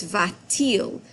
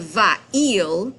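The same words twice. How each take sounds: First: Va-t-il with a clear t sound between va and il; linking t added. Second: Va-il run together as two vowels, no t between; wrong form without the t. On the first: Teacher showing students the correct linking t. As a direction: slip a crisp t into va-t-il. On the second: Teacher showing students the form to avoid. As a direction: say va-il with the vowels touching. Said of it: "instead of". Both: Shown as a demonstration.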